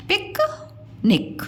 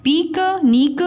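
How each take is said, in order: First: पिक निक with short i; सही छोटी इ. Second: पीक नीक with long ee; गलत लंबी ई. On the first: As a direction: clip both parts, पिक निक. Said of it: "सही उच्चारण क्या होगा". (पिक निक में इ छोटी) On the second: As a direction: stretch both vowels in पीक नीक. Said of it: "ये उच्चारण गलत है". (पीक नीक में ई खींचकर) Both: Shown as a demonstration.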